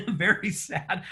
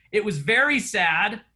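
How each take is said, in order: First: Sighing very sad in jest; mock sad. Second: Said in the usual way. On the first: Shown as a demonstration. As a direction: drag out very sad with fake gloom.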